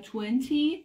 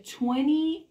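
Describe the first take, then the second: First: "twenty" with a crisp second t; twenty with sounded T. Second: "twenty" said as twenny, second t dropped; twenty with silent T. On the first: Teacher offering the other reading, "twenty" with the second t pronounced. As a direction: sound both t's in "twenty". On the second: Teacher offering the first reading, "twenty" as a slow twenny. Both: Shown as a demonstration. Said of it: "یعنی میگه twenty یا twenty".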